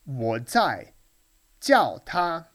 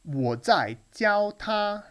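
First: The verb is not said with a level tone. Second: The verb has an exaggerated high level tone. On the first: The speaker is calling someone over. "I'm calling him" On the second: The speaker is teaching someone. "I was over-exaggerated the first tone there"

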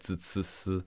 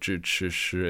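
First: The initial consonants are dental, tongue flat forward. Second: The initial consonants are retroflex, tongue curled back. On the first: This is how southern speakers pronounce it. "the southern accent" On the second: This is the standard northern pronunciation. "instead of"

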